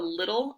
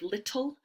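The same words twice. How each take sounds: First: The double T sounds like a soft D. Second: The double T sounds like a hard T.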